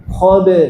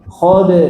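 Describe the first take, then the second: The two takes are said the same way.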